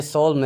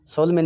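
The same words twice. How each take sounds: First: सोल्म with a silent n; सोल्म, one falling syllable; right reading. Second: सोलमन with the n sounded; mock mistake सोलमन; सोलमन, n pronounced at the end; wrong reading. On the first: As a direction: correct सोल्म, ends on m. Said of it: "ये सोल्म है". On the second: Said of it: "सोलमन नहीं है". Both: Shown as a demonstration.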